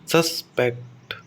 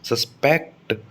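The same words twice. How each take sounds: First: The stress is on the first syllable. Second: The stress is on the second syllable. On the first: It is a noun. "Suspect noun है" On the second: It is a verb. "Suspect verb है"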